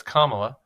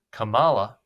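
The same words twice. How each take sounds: First: "Kamala" stressed on the first syllable, KA-ma-la; correct pronunciation. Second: "Kamala" with emphasis pushed off the first syllable to later in the name; mispronounced, stress shifted late. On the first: Shown as a demonstration. Commentator correcting how her name is said, "Kamala" with first-syllable stress. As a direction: put the emphasis at the start of "Kamala". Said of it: "when it's Kamala".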